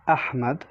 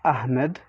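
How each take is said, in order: First: The H is heavy and breathy. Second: The H is light and plain. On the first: The speaker calls it right. "So basically it's a heavy H" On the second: The speaker calls it wrong. "not Ahmed"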